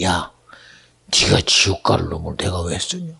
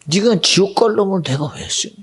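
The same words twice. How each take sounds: First: Low, stern rebuke from God; a hint of a stern God, lower; lower, quiet divine rebuke. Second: Louder, stressing 갈 in 지옥 갈 놈; God's rebuke pressed harder; louder divine rebuke. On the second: Retold or imitated. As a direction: firmer repeated rebuke. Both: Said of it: "마음에 감동이 돼".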